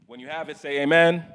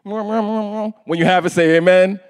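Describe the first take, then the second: First: Muffled behind a face mask; through a face mask. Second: Slow louder call for amen. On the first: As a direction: speak through a cloth mask. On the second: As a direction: call out to the congregation. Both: Real, not acted. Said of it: "I can't speak through this mask".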